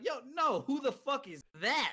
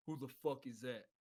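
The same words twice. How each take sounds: First: Higher, incredulous inner voice; retold alarm. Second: Low, soft challenge from the dark; roommate in the dark. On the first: Newcomer thinking to himself after a voice in the dark, startled. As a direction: act out a startled reaction in your head. His alarmed thought on hearing a voice. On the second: Retold or imitated. Roommate challenging a stranger entering the dark barracks room, low and quiet. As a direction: imitate a roommate's low, subdued demand.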